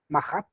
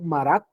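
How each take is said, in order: First: The middle consonant sounds like an h. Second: The middle consonant is a clear r sound. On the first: The speaker calls it right. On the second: The speaker calls it wrong.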